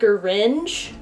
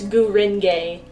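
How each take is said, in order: First: The word is squeezed into one syllable. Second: The word is spoken with three syllables. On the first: The speaker calls it wrong. "I was pronouncing it Gringe, which doesn't make sense" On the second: The speaker calls it right. "no, it's Gurenge"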